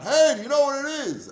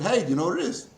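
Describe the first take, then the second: First: The question is shouted loudly. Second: The question is said at normal volume. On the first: "I didn't shout" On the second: "I said"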